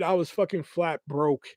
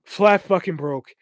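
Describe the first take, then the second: First: Said in the usual way. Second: Slow, each word "Flat fucking broke" leaned on; emphatic repeat. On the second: Real, not acted. Driving home to listeners how broke he was, slow and emphatic.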